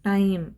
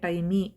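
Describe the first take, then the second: First: The word ends cleanly on the m sound. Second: An extra vowel sound follows the final m. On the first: The speaker calls it right. "ಟೈಮ್ ಅಂತ ಅಷ್ಟೇ ಹೇಳೋದು" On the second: The speaker calls it wrong. "ಟೈಮಿ ಅಂತ ಹೇಳಲ್ಲ"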